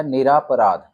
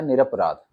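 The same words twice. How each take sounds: First: निरापराध with a long aa after r, nir-aa-pa-raadh; wrong spelling read out. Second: निरपराध with a short a, nir-pa-raadh, no aa; correct form. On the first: Teacher reading the wrong option to students, long aa. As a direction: say निरापराध with the extra aa sound. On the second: Teacher giving students the correct form, short a. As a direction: say निरपराध with no long aa after r. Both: Shown as a demonstration. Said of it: "इसमें आ की मात्रा नहीं रहेगी".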